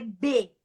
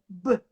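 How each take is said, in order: First: The letter is said as its full name. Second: Only the bare consonant sound is said. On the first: This is what the letter is called. "o nome da letra é B" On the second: This is the sound the letter makes in words. "mas o som dessa letra é B"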